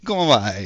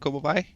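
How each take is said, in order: First: It is said in an exaggerated Italian accent. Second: It is said as a Portuguese attempt. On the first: "this Italian accent thing" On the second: "how to say this in Portuguese"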